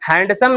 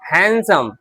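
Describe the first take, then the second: First: The d sound is pronounced in the middle. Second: The d sound is left out entirely. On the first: The speaker calls it wrong. "हैंडसम नहीं" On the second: The speaker calls it right. "डी को हम नहीं पढ़ते हैं"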